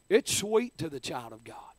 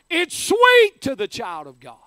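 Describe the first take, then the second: First: Said in the usual way. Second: Much louder and higher, hitting sweet; preacher's shouted cry of triumph; shouted proclamation. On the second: Acted. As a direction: shout it to the rafters, leaning on sweet.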